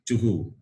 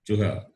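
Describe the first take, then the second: First: The final h is followed by a 'u' echo. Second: The final h is followed by an 'a' echo. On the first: The speaker calls it right. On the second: The speaker calls it wrong.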